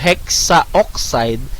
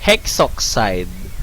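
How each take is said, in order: First: A vowel sound comes between 'hex' and 'oxide'. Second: No vowel sound comes between 'hex' and 'oxide'. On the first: The speaker calls it wrong. "since it's A O" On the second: The speaker calls it right. "we simply drop the A and change it to O"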